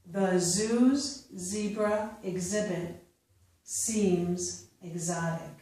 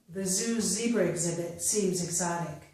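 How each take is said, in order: First: The sentence is read slowly. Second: The sentence is read at natural speed. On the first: "I will first read them slowly" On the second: "a second time at a more natural pace"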